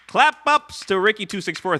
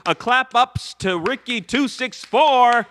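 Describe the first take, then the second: First: Said in the usual way. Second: Louder, higher, slow emphatic shoutout; big cheer for the donor; hyped shoutout. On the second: Real, not acted.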